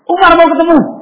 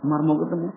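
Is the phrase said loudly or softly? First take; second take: loudly; softly. First: The phrase is said in a loud, raised voice. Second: The phrase is said at a soft, normal volume. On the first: The message is meant to be heard directly by the person inside. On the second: The message is passed on through a go-between.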